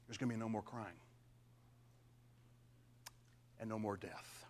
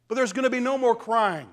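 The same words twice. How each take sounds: First: Quiet, tender whisper after the proclamation; hushed repeat. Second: Said in the usual way. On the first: Real, not acted. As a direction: drop to a near whisper, lower. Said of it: "same promise repeated in a hush". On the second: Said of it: "repeated softly after full voice".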